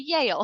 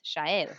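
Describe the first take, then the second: First: The name is said with a local English pronunciation. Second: The name is said with an Argentine Spanish pronunciation. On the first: "here people would just say Yale" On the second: "in Argentina, where I'm from, it's Shael"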